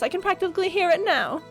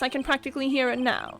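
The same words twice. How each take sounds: First: It is said in the witness character's put-on voice. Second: It is said in the prosecutor character's put-on voice. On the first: The speaker calls it right. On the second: The speaker calls it wrong.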